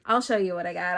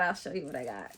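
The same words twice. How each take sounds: First: Said in the usual way. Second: Softer, lower repeat; low, quiet afterthought; lowered aside. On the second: Real, not acted. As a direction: drop it down to an undertone. Repeats the line, second take dropped.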